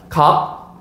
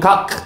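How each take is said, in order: First: The final consonant is cut off without release. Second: The final consonant is released with an audible burst. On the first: The speaker calls it right. "그냥 각, 각, 각" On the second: The speaker calls it wrong. "우린 각, 각, 막 이렇게 발음하지 않아요"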